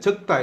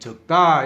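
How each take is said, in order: First: The accent is on the first syllable. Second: The accent is on the second syllable. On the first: It means to write something down. "조금 막 세게 할 때 적다 이렇게 하면 예, 글을 적는 거고" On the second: It means few or small. "뒤에 것을 적다 이렇게 하면 작은 거죠"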